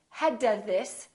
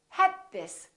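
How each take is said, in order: First: The final d of had is released. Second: The final d of had is held. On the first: The speaker calls it wrong. "So don't say had this" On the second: The speaker calls it right. "Say had this"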